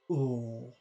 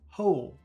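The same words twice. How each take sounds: First: The word is drawn out very slowly. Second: The word is said quickly at normal speed. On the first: "Compare that to number two" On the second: "Let's try to say it quickly"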